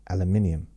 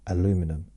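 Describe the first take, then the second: First: It is said the British way, five syllables. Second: It is said the American way, four syllables.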